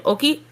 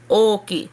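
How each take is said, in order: First: Said in the usual way. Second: Oki with the oo drawn out; oki, doubled vowel held long. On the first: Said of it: "instead of saying oki". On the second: Shown as a demonstration. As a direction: stretch the repeated vowel in oki. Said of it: "put the emphasis on that".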